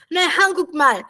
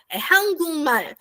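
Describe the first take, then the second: First: Hangukmal with a hard k before m; wrong reading. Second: Hangulmal said slowly with an l sound; Hangulmal, slow and careful, k becomes l; slow model Hangulmal; correct reading. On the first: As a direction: say Hangukmal, k sounded. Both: Shown as a demonstration.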